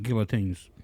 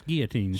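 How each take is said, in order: First: Put-on "guillotines" with the L sounded, GILL-uh-teens; daughter's pronunciation. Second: Put-on "guillotines" with no L, GEE-uh-teens; corrected pronunciation. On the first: Father quoting his daughter's way, "guillotines" with a sounded L. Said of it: "my daughter actually pronounces it". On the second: Father correcting his daughter, "guillotines" with silent L. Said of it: "that is wrong".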